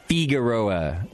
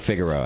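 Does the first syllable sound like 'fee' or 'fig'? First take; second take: fee; fig. First: The first syllable has a long 'fee' sound. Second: The first syllable sounds like the word 'fig'. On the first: "I think that's the Italian in you coming out" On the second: "You just like fig"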